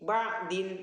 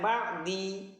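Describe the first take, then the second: First: The word ends with an added -in sound. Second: The word ends with an added i vowel. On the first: "nggak bisa" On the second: "Jangan bacanya ba'di"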